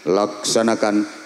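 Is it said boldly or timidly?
timidly. It is said timidly and without force.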